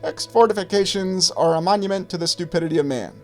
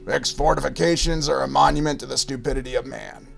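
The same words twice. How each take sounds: First: It is said in a high-pitched voice. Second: It is said in a low gravelly voice. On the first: "I'll say it in his high-pitched voice" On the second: "and his gravelly voice"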